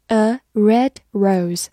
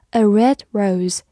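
First: Slow, careful model reading. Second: Said in the usual way. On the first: Shown as a demonstration. Teacher repeating the phrase slowly for the class. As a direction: spell it out slowly for learners. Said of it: "就是红玫瑰". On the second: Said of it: "比如说".

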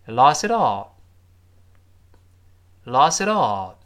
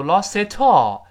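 First: "lost it all" joined up with a softened t; loud teacher demo of linked "lost it all"; correct linked reading. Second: "lost it all" with a hard, puffed t before "all"; loud wrong demo of "lost it all", t unvoiced; wrong unsoftened t. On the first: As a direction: model "lost it all" smoothly, t lightly voiced. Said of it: "我们再读一遍". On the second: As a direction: show the awkward "lost it all" with a crisp t. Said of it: "最后注意那个t还有浊化， 我不要读". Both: Shown as a demonstration.

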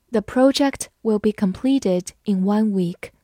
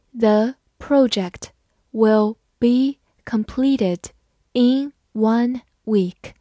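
First: Said in the usual way. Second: Slow, word by word; slow reading. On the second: Shown as a demonstration. Teacher reads the sentence slowly for students. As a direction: spell it out slowly for the class. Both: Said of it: "好，慢慢来读。".

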